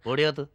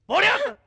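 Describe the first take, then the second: First: Said in the usual way. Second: Shouted order. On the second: Acted. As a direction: yell the order at the crying girl. Repeated order, shouted high. (ഉയർന്ന ശബ്ദത്തിൽ ആജ്ഞ)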